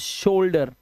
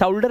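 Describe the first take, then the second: First: The first vowel is an 'oh' sound. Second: The first vowel is not an 'oh' sound. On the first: The speaker calls it right. "इसे शोल्डर" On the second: The speaker calls it wrong. "अब इसे शोल्डर नहीं पढ़ेंगे"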